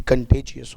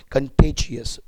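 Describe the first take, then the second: First: कंटेजियस said slowly as kun-TAY-jee-us with a clear ay; teacher correcting कंटेजियस; slow correct pronunciation. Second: कंटेजियस said kun-TAY-jee-us, not kun-TAA-jee-us; teacher models कंटेजियस; correct pronunciation. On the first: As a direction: stretch out कंटेजियस so students hear the ay. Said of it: "ऐसा नहीं होता है". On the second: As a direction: say कंटेजियस with a long ay in the second syllable. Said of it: "बहुत सारे व्यक्ति कंटाजियस बोलते हैं". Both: Shown as a demonstration.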